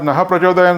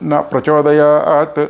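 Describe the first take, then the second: First: The word ends with a breathy h sound. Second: The word ends on a bare vowel, no h. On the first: Inspire us. The speaker calls it right. "నహ ప్రచోదయం చదవ బదులు" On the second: Do not inspire us. The speaker calls it wrong. "చాలామంది చదువుతుంటారు"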